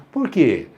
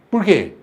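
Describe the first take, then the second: First: Said in the usual way. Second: "Por quê?" curto e mais incisivo, em bronca encenada; porquê bravo. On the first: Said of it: "o que que mudou aí?". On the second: Shown as a demonstration. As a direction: leia o "Por quê?" como cobrança irritada. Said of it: "E fica brava". (tom bravo, de quem se ofendeu)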